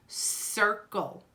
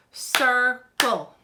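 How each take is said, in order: First: Said in the usual way. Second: Circle split into two separate, firm beats; clapped-out syllables. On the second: Shown as a demonstration. Teacher clapping out the word for children, Circle in two beats. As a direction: break Circle in two, a gap between the syllables. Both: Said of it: "Let's clap out the word".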